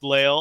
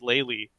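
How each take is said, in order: First: The final e is silent. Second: The final e is pronounced as ee. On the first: The speaker calls it right. "pronunciation guide, guys, it's Lael" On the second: The speaker calls it wrong. "everyone says Laylee for some reason"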